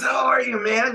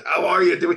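First: Much higher, louder happy hello; old friend's beaming reply; delighted greeting. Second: Louder, higher glad hello; happy reunion shout; excited greeting. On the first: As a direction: throw back an overjoyed welcome. Player greets him back warmly. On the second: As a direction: greet an old friend with delight. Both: Retold or imitated.

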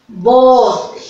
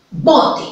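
First: "Bote" with "bo" punched loud and falling. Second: "bote" with the first syllable "bo" pitched up and stressed. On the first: Teacher repeating "Bote" louder so the class hears the strong syllable. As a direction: hit the "bo" of "Bote" hard, then let it fall. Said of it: "la sílaba bo la que tiene mayor fuerza". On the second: Teacher showing first graders how to stress "bote". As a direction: lift the "bo" of "bote" above the "te". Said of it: "palabra yo puedo decir con mayor fuerza". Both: Shown as a demonstration.

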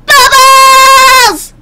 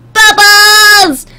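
First: Very high, loud, held-out yell; louder cartoon shout. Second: High, loud drawn-out squeal; excited cartoon shout. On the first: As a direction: push the squeal higher and hold it. Repeats it more intensely. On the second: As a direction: call it out high and long. Calls out pony's catchphrase.

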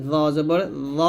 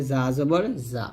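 First: জ thick, tongue at upper teeth; heavy lisped Z. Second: Light buzzing জা, lower in pitch; thin Z. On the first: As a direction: round and thicken জ. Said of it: "মোটো হবে". (মোটা করে জ) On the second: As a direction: keep জা thin at the lower teeth. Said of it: "পাতলা করে". (পাতলা করে জা) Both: Shown as a demonstration.

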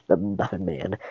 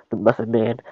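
First: "The Muffin Man." said softer with a falling tune; flat statement. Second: "The Muffin Man?" asked with a rising tune on "Man"; puzzled question. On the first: Gingerbread Man confirming the name, falling statement. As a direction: drop "Muffin Man" down as a settled answer. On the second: Gingerbread Man asking back about the Muffin Man, rising question. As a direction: lift "Man" up as if checking the name. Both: Acted. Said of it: "Yes, I know the Muffin Man".

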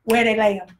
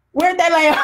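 First: Said in the usual way. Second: Asked louder, half laughing; urgent. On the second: Retold or imitated. Jesus pressing to see Lazarus, louder and laughing. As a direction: push the question with a laugh. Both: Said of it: "the next thing he says".

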